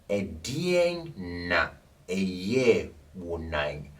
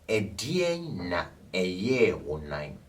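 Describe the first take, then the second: First: It is said slowly. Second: It is said at normal speed.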